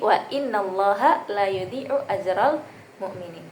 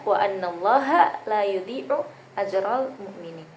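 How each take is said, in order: First: The word after wa begins with an i vowel. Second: The word after wa begins with an a vowel. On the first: "menurut Imam Al-Kisai dibaca inna" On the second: "menurut imam lain dibaca"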